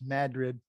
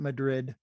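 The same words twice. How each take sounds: First: The stress is on the first syllable. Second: The stress is on the second syllable. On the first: This is how locals in the region say the name. The speaker calls it right. "in the North Country, by the way, it's pronounced Madrid" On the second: This is not how locals in the region say the name. The speaker calls it wrong. "not Madrid"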